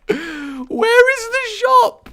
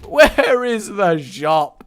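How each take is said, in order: First: Very high, slow whine; squeaky despair. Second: Said in the usual way. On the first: Real, not acted. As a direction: stretch it into a squeak. Exasperated search, squeaky.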